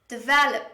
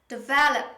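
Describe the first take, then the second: No difference in how they are said.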